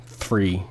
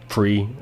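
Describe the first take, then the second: First: THREE slowly with an effortful TH; careful TH attempt. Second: "three" said as "free", with an F. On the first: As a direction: try hard for the TH in "three". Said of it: "I can't say T H's properly". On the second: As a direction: let the TH slip into F: "free". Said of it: "That's more me". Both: Shown as a demonstration.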